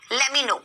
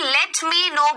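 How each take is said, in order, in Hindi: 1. यह वाक्यांश जल्दी में बोला गया है, शब्द एक-दूसरे में मिल जाते हैं। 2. यह वाक्यांश सावधानी से बोला गया है, हर शब्द साफ़ सुनाई देता है। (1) "जल्दी जल्दी में बोल देते हैं" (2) "लेट मी नो बोलने की जगह"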